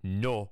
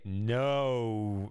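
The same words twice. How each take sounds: First: The vowel stays steady throughout. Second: The vowel glides as it rounds.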